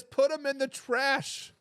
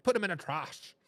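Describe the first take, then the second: First: Said in the usual way. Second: Put-on heavy New Jersey accent, broad vowel in "trash"; imitated New Jersey accent. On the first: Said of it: "James says". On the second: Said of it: "in a heavy New Jersey accent".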